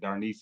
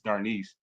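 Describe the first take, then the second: First: The name is said in an altered, playful way. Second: The name is said in its standard way. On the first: It is an affectionate personal version of the name. The speaker calls it wrong. "mispronouncing her name, but that's how I like to say it" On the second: It is how the name is really pronounced. The speaker calls it right. "It's Darnice"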